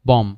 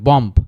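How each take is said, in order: First: The word ends on the m sound. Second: A b sound is heard at the end. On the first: The speaker calls it right. "আর বিটা হচ্ছে উচ্চারিত হবে না" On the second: The speaker calls it wrong. "বম্ব না"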